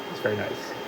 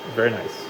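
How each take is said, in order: First: Much softer, muttered repeat; quiet echo. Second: Said in the usual way. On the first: Real, not acted. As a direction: say it again under your breath. Repeats praise, then echoes softer.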